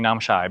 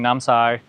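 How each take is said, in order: First: The last syllable starts with an 'sh' sound. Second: The last syllable starts with an 's' sound. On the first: This is how the other person says it. "she's saying Namshai" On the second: This is how the speaker says it. "I'm saying Namsai"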